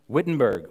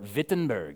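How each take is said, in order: First: The name is said with English sounds. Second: The name is said with German sounds. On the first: The speaker calls it wrong. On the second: The speaker calls it right.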